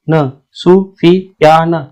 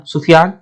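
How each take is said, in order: First: "सु, फी, या, न" with a break after each syllable. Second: "सुफियान" blended as one word; syllables joined up. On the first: Teacher breaking "सु, फी, या, न" apart for learners, syllable by syllable. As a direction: sound out "सु", "फी", "या", "न" separately. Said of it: "दो letter पहले एक बार में पढ़ो". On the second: Teacher reading "सुफियान" whole after sounding out, blended. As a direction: run the syllables together into "सुफियान". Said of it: "फिर next दो लेटर साथ में पढ़ो". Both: Shown as a demonstration.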